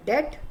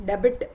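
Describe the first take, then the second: First: "det" with no B, straight from vowel to T; silent B. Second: "debit" with the B fully voiced before T; sounded B, wrong. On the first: Teacher showing the right way, "det" with B silent. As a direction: say "det", leaving the B out. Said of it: "तो बी silent". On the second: Teacher showing what not to say, "debit" with B sounded. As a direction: wrongly put the B into the word, "debit". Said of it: "नहीं बोलते". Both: Shown as a demonstration.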